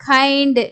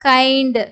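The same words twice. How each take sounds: Both takes have the same delivery.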